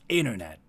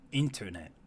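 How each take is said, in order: First: It is pronounced with an American accent. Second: It is pronounced without an American accent. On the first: "and they say like internet" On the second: "I say like internet apparently"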